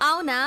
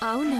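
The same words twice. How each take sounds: First: The word is said loudly and forcefully. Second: The word is said softly and quietly. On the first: The news seems exciting. "గట్టిగా అనాలా?" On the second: The news does not seem exciting. "అవునా అని మెల్లగా అంటావేంటి"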